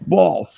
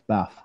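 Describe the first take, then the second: First: It is said in a southern English accent. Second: It is said in a northern English accent.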